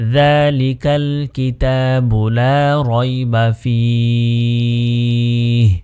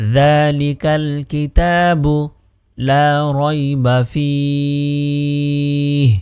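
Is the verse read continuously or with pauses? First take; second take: continuously; with pauses. First: The verse is read straight through together. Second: The verse is broken up with a stop. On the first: "একসাথে যদি আমরা পূর্ণ আয়াতটি পড়ি" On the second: "এখানে আমি একটি অক্ফ করার চেষ্টা করেছি, অর্থাৎ আলাদা করার চেষ্টা করেছি"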